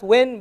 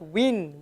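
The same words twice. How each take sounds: First: The vowel is an open eh sound. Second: The vowel is a short i sound. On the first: The speaker calls it wrong. "Not win" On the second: The speaker calls it right. "but win"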